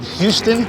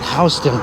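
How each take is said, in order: First: It is read the way it is spelled. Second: It is said the local New York way. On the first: "It's actually spelled Houston" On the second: "over here we pronounce it Houston"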